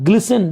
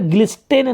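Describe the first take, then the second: First: The t sound is silent. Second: The t sound is pronounced. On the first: The speaker calls it right. "तो यहाँ पे एस हम पढ़ते, टी को silent कर देते हैं" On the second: The speaker calls it wrong. "यहाँ पे ग्लिस्टेन नहीं पढ़ेंगे"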